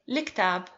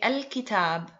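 First: It begins with a reduced 'li' sound. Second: It begins with a full 'al' sound. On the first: This is the everyday dialect form. "In dialect, we make it easier, and we say liktab" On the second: This is the formal form. "In formal Arabic, we say al-kitab"

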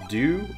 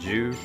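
First: The word begins with a plain d sound. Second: The word begins with a j sound. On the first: "It's Dew"

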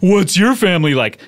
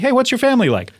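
First: It is said in a silly put-on voice. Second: It is said in a normal natural voice.

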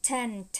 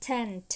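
The two takes are said the same way.

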